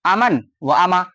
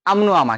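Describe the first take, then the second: First: अमन व अमा as separate words, व standing alone; read as written. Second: अमनो अमा with the linking "o" fused onto अमन; joined reading. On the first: Teacher shows students the written form, words read separately. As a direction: split अमन, व, अमा apart slowly. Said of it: "लेकिन इसको मिला के पढ़ते हैं।". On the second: Teacher shows students how to read it, words linked. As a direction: run अमन and व together as "amno". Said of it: "लेकिन आप क्या पढ़ेंगे?". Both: Shown as a demonstration.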